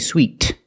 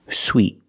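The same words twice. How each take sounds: First: The final T is released with a puff of air. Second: The final T is stopped, with no release. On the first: The speaker calls it wrong. "I do not say" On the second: The speaker calls it right. "the T is a stop T"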